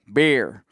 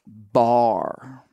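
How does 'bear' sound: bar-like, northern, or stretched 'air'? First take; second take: northern; bar-like. First: It is said in a far northern accent. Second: The vowel sounds like 'bar'. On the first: This is how people far up north say it. "like way up north, they would be like" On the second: This is how people in East Tennessee say it. "In East Tennessee, they say bar"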